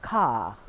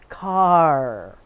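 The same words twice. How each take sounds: First: The final R sound is dropped. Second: The final R sound is clearly pronounced. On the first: "He takes the R out" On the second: "he has to remember to put it in an R"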